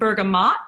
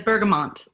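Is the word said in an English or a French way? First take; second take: French; English. First: The word is said with a French-style pronunciation. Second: The word is said with an English-style pronunciation. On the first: The speaker calls it right. "It is pronounced bergamot in like the French" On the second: The speaker calls it wrong. "Who in here says bergamot?"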